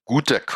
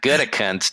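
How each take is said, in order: First: The name is said with a German pronunciation. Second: The name is said with an English pronunciation. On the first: The speaker calls it right. "as a German person would say it" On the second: The speaker calls it wrong. "It's not"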